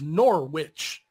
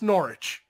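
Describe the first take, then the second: First: The W sound in the middle is pronounced. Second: The W sound in the middle is silent. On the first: The speaker calls it wrong. "like how it's spelled is Norwich" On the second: The speaker calls it right. "but it's Norwich. Like the W is silent"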